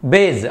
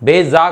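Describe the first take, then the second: First: The word ends on a bare consonant. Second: The word ends with an added vowel. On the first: The speaker calls it right. "బేజ్ అంతే" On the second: The speaker calls it wrong. "బేజా కాదు"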